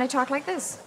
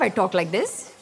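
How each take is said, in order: First: Said in the usual way. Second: Thick Indian accent for business hours; nine-to-five voice. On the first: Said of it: "and from five to nine". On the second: Shown as a demonstration. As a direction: put on the Indian accent for the customers. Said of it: "From nine to five".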